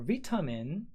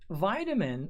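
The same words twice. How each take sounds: First: The word has a British pronunciation. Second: The word has an American pronunciation.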